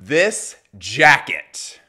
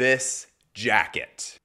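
First: It is said with lively, eager enthusiasm. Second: It is said flatly, without much enthusiasm. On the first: The speaker calls it right. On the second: The speaker calls it wrong.

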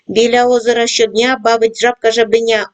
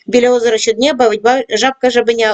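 First: It is read at a fast pace. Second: It is read at the fastest pace. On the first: "кожного разу пришвидшуємо темп" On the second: "кожного разу пришвидшуємо темп"

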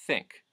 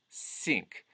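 First: It begins with a plain voiceless th sound. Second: It begins with a clear s sound. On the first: "voiceless TH as in think" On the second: "The voiceless TH turns into a s"

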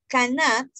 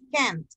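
First: The word is said in full, three syllables. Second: The word is contracted into one syllable. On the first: "forma negativa" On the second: "la forma de contraction que es can't"

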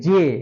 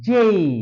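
First: It is said in a Bengali-style accent. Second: It is said in a British English accent. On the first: The speaker calls it wrong. "আমরা বলি জে" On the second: The speaker calls it right. "কিন্তু জে হবে না, জেই"

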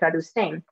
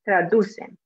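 First: The stress falls on the last syllable. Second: The stress falls on the second-to-last syllable. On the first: The speaker calls it wrong. "They put the stress at the end and say traducen" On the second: The speaker calls it right. "but it should be traducen"

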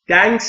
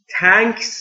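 First: It starts with a d sound. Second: It starts with a hard t sound. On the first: "دنکس هم نیست" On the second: "تانکس نیست. تانکس یعنی تانک ها"

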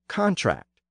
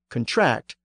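First: The stress is on the first syllable. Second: The stress is on the second syllable. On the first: It is a noun meaning a written agreement. "the noun form has it at the front" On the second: It is a verb meaning to agree formally. "the verb form almost always has the stress at the end"

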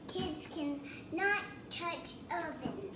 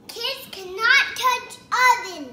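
First: It is said at a normal, softer volume. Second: It is said louder.

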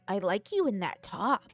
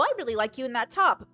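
First: It is said in a creepy, leering way. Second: It is said in a neutral, harmless way.

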